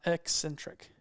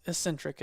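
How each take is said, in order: First: "eccentric" slowly as "EK-sen-trik", K stressed; drawn-out "eccentric" with a clear K-S; contrasted pronunciation. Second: "eccentric" as "ih-SEN-trik", no K; alternative pronunciation. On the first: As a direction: lean hard on the "ek" opening "eccentric". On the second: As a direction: say "eccentric" with only an S sound for the C's. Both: Shown as a demonstration. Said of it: "I can see that pronounced".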